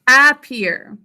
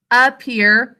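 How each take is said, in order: First: "Appear" as AP-PEER, short a as in cat; spelling pronunciation. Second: "appear" as everyday uh-PEER; unstressed first syllable. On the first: Teacher repeats the think-to-spell form, "Appear" as AP-peer. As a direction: give "Appear" a full first vowel, no schwa. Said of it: "How should we think to spell this?". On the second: Teacher shows class the spoken word, "appear" with unstressed uh. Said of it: "There's an unstressed syllable at the beginning". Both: Shown as a demonstration.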